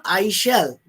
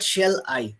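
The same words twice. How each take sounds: First: "I shall" said as the wrong order, stress on shall. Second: "shall I" said low, with a falling tune; shall I, the right order. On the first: Lecturer to students, marking the wrong order. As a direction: set "I shall" apart as the order to avoid. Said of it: "It is not". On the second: Lecturer to students, giving the right order. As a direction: land "shall I" as the correct order. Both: Shown as a demonstration.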